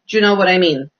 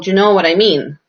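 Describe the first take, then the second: First: The words are linked together in connected speech. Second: The words are said separately, one by one. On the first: The speaker calls it right. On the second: The speaker calls it wrong.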